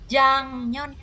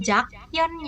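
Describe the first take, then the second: First: The middle consonant is a nasal ng sound. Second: The middle consonant is a plain k sound. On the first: The speaker calls it right. "dibacanya adalah Jangyeon gitu" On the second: The speaker calls it wrong. "tulisannya sih Jakyeon ya"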